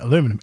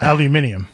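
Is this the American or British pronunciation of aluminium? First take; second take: American; British. First: It is said with four syllables, American style. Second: It is said with five syllables, British style.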